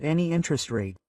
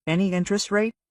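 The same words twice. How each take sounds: First: Said in the usual way. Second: "Any interest rate?" higher, rising as a question; questioning echo. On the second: A narrator's reading. Lender echoes the borrower's offer, questioning "Any interest rate?". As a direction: repeat "Any interest rate?" back as a higher-pitched query.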